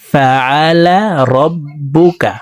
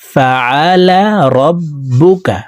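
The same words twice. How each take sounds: Both takes have the same delivery.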